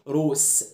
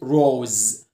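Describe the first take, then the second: First: The final consonant is an s sound. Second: The final consonant is a z sound. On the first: The speaker calls it wrong. "ما بقولش روس" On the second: The speaker calls it right. "بنطقها ز"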